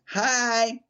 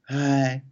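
First: The voice sounds harsh and grating. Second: The voice sounds soft and warm.

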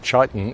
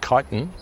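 First: The word begins with a 'ch' sound. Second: The word begins with a 'k' sound. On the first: The speaker calls it wrong. "I was calling the substances in insects chitin" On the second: The speaker calls it right. "It's actually chitin, like chimera"

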